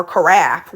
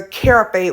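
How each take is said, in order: First: "carafe" said as kuh-RAFF, stress on the last syllable; second way of saying it. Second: "carafe" said as KEH-ruh-fay, stress on the first syllable; first way of saying it. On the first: Unsure cook correcting herself on carafe, second pronunciation. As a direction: say "carafe" as kuh-RAF, ending in a short f. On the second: Unsure cook naming a carafe, first pronunciation. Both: Shown as a demonstration. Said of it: "whatever, however you say it".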